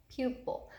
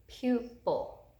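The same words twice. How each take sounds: First: Said in the usual way. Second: "pupil" split slowly as PU, then pil; syllable break. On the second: Shown as a demonstration. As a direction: break "pupil" after the long open U. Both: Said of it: "you can hear that our syllable break".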